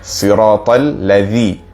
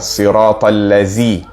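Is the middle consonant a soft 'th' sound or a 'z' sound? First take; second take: th sound; z sound. First: The consonant is a soft 'th' sound. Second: The consonant is a buzzing 'z' sound. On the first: The speaker calls it right. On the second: The speaker calls it wrong. "jangan dibaca"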